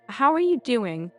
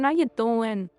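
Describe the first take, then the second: First: It is said plainly in a neutral accent. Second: It is said in an emphasized Brooklyn-style accent. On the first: "I don't have to say it like that. I could say" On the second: "Your do and doing just seems so Brooklyn. ... Maybe I'm just emphasizing it"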